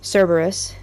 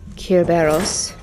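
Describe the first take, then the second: First: The name is said the familiar English way. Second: The name is said the original Greek way. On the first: "as we know it pronounced" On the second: "in the original Greek"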